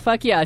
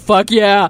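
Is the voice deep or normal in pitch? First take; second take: normal; deep. First: The voice is at a normal pitch. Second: The voice is pitched very low. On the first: "say fuck yeah" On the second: "Make it really low"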